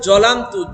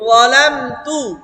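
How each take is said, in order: First: The first consonant is a plain j/z sound. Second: The first consonant has the tongue against the teeth. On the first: The speaker calls it wrong. "অনেকে আমরা পড়ি জলামতু, জ না" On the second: The speaker calls it right. "জিব্বার আঘাত দাঁতের আঘাত সাথে ললামতু"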